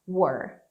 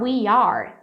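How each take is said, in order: First: It is reduced to one short syllable. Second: It is said as two full words. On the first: "você pode falar assim, were. Mais fácil" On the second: "Ou pode falar we are, no problem"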